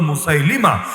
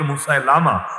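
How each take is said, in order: First: The vowel before the final syllable is 'i'. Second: The vowel before the final syllable is 'a'. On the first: The speaker calls it right. "সহি উচ্চারণ হলো" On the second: The speaker calls it wrong. "ভুল উচ্চারণ"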